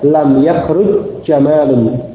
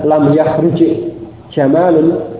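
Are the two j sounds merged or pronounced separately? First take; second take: merged; separate. First: The two j sounds merge into one doubled sound. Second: The two j sounds are pronounced separately. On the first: The speaker calls it right. "Sehingga dibaca lam yahruj jamalun. Jimnya diidghamkan" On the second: The speaker calls it wrong. "bukan lam yahruj jamalun"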